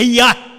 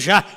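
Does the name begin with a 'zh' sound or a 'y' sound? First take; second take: y sound; zh sound. First: The name begins with a 'y' sound. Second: The name begins with a 'zh' sound. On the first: This is the original form of the name. The speaker calls it right. "se você leva para o original é Iá" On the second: This is the Portuguese form of the name. The speaker calls it wrong. "Já é porque é no português"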